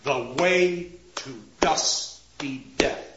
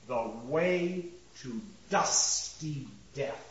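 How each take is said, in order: First: "The way to dusty death" slow and lower, each stress firmly weighted; regular rhythm. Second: "the way to dusty death" low, soft and slow, beat by beat; regular rhythm. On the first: Lecturer demonstrates regular rhythm, slow firm beats. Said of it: "Regular rhythm is there". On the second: Lecturer scans the line for the class, slow soft beats. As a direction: measure out "the way to dusty death", sinking at the end. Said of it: "first part of this line is regular in rhythm". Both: Shown as a demonstration.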